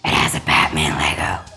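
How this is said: It is said in a Batman voice.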